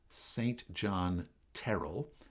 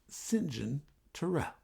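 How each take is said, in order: First: The name is pronounced the plain, non-British way. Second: The name is pronounced the British way. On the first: The speaker calls it wrong. "not Saint John Terrell" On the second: The speaker calls it right. "He said it the way that the Brits do"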